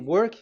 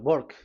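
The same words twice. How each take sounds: First: It is said in the speaker's usual accent. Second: It is said in an Indian English accent.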